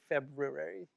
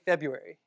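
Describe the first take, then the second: First: The first R sound is pronounced. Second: The first R sound is dropped. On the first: "I don't say February" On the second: "but I say February"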